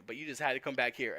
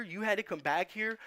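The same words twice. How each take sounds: First: "had" pressed with a falling close, said in his usual pitch; had with a falling tune. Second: "had" hit high with a rising tune; stress on had. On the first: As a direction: drop the weight on "had", settling it. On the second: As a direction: lean up into "had", accusing. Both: Retold or imitated. Cop repeating the same rebuke.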